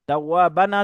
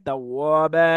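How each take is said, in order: First: The word ends with an n sound. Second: The word ends with a long a vowel. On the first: The reader continues without stopping. "তাওয়াবান আছে" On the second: The reader stops at the end of the verse. "থেমে গেলে তাওয়াবা"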